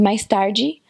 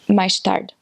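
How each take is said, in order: First: It is said in a Brazilian accent. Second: It is said in a Cape Verdean accent.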